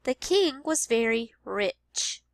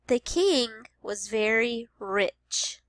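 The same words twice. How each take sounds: First: Slowed The king was very rich; slow teacher read-aloud; slow modeled sentence. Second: Slow, clear The king was very rich; slow teacher read-aloud; slow modeled sentence. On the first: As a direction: repeat slowly. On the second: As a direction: read slowly. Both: Shown as a demonstration. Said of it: "listening for the ch sound".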